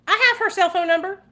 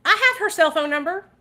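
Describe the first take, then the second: First: Higher, louder insistence; more emphatic. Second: Raised, insistent claim; emphatic. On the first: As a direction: push it up even higher. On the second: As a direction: say it higher, pressing the point. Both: Real, not acted.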